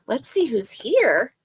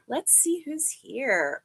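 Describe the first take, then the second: First: Said in the usual way. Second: "Let's see who's here" said slower and softer, drawn out; soft slow repeat. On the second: Real, not acted. Host scanning the chat, murmuring "Let's see who's here" slowly. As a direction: drift into it quietly as she scrolls.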